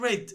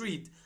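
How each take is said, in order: First: It is pronounced as the past tense form. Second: It is pronounced as the present tense form. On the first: The action happened in the past. The speaker calls it right. "because this is a past simple" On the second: The action happens habitually now. The speaker calls it wrong. "not read"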